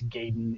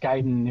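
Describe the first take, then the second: First: The name is pronounced the American way. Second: The name is pronounced the Japanese way. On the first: "if you want to use the Americanized version" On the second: "if you want to use the Japanese translation"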